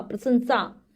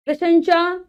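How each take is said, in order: First: "प्रशंसा" ending in a clean SAA; correct pronunciation. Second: "प्रशंसा" higher, ending in SHA; mispronounced word. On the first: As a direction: say prashansaa for "प्रशंसा", falling. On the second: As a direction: say "प्रशंसा" wrongly as prashansha. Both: Shown as a demonstration. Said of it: "शा नहीं, सा".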